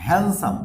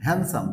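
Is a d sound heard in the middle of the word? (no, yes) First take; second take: no; no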